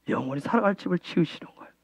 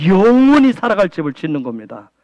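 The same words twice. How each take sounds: First: Much softer, quicker repeat, almost to himself; quiet fast echo. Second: Said in the usual way. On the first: Real, not acted. Pastor murmuring his point again to the congregation. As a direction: drop it away in a rapid murmur.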